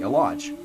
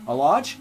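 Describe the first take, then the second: First: "a large" falling at the end as a statement; confirming A LARGE. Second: "A large" lifted at the end as a question. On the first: Confirming the box size, matter-of-fact. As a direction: settle "a large" with a downward tune. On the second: Echoing a question about box size, questioning. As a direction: ask "A large" with a rising tune. Echoes question, then confirms it. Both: Acted.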